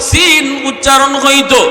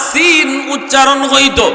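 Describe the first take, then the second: No difference in how they are said.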